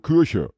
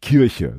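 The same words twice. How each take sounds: First: Kirche is said the Braunschweig way. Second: Kirche is said the Westphalian way, not Braunschweig's.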